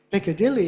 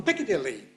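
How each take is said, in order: First: Said in the usual way. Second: Quick "Piccadilly" punched on PIC; shifted stress. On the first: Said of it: "Piccadilly has become Piccadilly". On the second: Shown as a demonstration. Teacher mocking what people claim, stress shifted to PIC. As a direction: hit PIC first and rush the rest of "Piccadilly". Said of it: "Oh, the stress has shifted".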